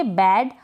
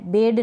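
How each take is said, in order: First: बेड opened to short "ae", as in "bad"; correct pronunciation. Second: First बेड with long "ay", like "bade"; wrong pronunciation. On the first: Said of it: "इसको पढ़ेंगे". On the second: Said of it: "नहीं पढ़ेंगे". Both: Shown as a demonstration.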